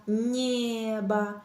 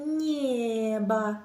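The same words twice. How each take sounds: Both takes have the same delivery.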